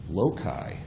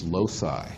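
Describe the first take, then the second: First: It is pronounced the classical Latin way. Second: It is pronounced the American way. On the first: The speaker calls it right. "The correct Latin pronunciation is loci" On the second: The speaker calls it wrong. "that's how Americans pronounce it"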